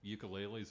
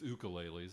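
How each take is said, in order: First: The first syllable starts with a 'yoo' sound. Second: The first syllable starts with an 'oo' sound. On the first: The speaker calls it wrong. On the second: The speaker calls it right.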